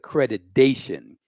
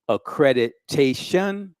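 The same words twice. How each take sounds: First: The syllable before the ending uses a D sound. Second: The syllable before the ending uses a T sound. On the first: The speaker calls it wrong. "don't say accreditation. It's not D-dation" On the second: The speaker calls it right. "it's T-tation"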